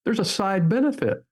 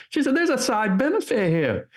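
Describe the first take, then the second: First: Said in the usual way. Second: Higher-pitched imitation of a New Hampshire accent. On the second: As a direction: retell her line in a New Hampshire accent, pitched well up. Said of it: "I'm gonna do my best New Hampshire accent".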